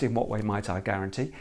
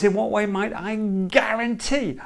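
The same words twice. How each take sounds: First: Said in the usual way. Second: "guarantee" underlined, pitched higher and weighted; stress on guarantee. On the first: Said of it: "it's not just". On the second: Shown as a demonstration. Coach showing the problem owner to hit "guarantee". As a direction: lean hard on "guarantee" as the key word. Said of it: "Underline the word".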